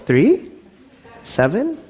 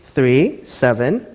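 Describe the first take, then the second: First: The voice rises like a question. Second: The voice falls like a plain statement.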